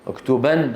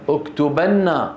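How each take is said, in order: First: اكتبن ending on a single closed n, uktuban; light emphatic noon. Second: Slow اكتبن with doubled n and final a, uktubanna; heavy emphatic noon. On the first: Teacher commands a playful pupil, اكتبن with light noon. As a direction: end اكتبن on n with no following vowel. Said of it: "نون التوكيد الخفيفة". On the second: Teacher commands an unruly pupil, اكتبن with heavy doubled noon. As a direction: hold the n of اكتبن, then release on "na". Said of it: "نون التوكيد الثقيلة". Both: Shown as a demonstration.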